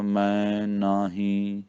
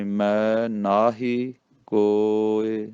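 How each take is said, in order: First: ਮੈਂ ਨਾਹੀ with humming nasal vowels; drawn-out ਮੈਂ ਨਾਹੀ through the nose; wrongly nasalised. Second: ਮੈਂ ਨਾਹੀ ਕੋਇ slow, with pure oral vowels; slow recitation, ਮੈਂ �and ਨਾਹੀ un-nasalised; without nasalisation. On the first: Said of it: "ਬਿੰਦੀਆਂ ਨਹੀਂ ਲਾਉਣੀਆਂ". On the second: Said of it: "ਬਿੰਦੀ ਤੋਂ ਬਿਨਾਂ ਹੀ". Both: Shown as a demonstration.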